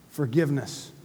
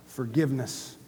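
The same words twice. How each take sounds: The two takes are said the same way.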